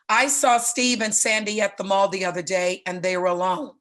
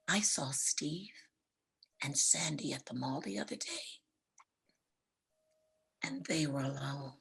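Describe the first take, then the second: First: It is said in a plain, neutral tone. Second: It is said in a knowing, suggestive tone. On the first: Nothing unusual happened. "So you're thinking big deal" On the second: Something improper may have happened. "Same words, different tone"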